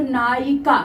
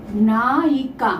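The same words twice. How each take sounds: First: Said in the usual way. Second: नायिका drawn out slowly, ending on a fall; slow dictation of नायिका for learners; slow syllable-by-syllable word. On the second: Shown as a demonstration. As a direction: stretch नायिका into ना, यि, का. Teacher repeats the word slowly.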